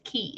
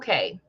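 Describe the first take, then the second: First: The word sounds like 'key', rhyming with 'see'. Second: The word sounds like 'kay', rhyming with 'day'. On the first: This is how the name is really said. "we all know it's key" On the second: It is said this way so it rhymes. "You have to say it like that because it rhymes"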